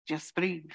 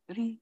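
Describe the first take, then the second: First: Said in the usual way. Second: Put-on gentle Indian accent. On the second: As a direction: breathe lifted high and light with a rising end, in a soft Indian accent. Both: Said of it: "He said it with that beautiful kind of accent".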